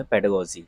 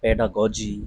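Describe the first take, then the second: First: "पेडागोजी" run together as PED-uh-go-jee; short unstressed middle "a" in "पेडागोजी"; taught pronunciation. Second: "पेडागोजी" spread out as pe-DAA-GAW-jee; weighty, separate syllables in "पेडागोजी"; heavy mispronunciation. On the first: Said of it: "इसका जो सही उच्चारण है". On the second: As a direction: say "पेडागोजी" with a full middle "aa". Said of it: "इस तरीके के भारी भारी word". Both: Shown as a demonstration.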